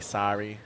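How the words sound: It is said in an American accent.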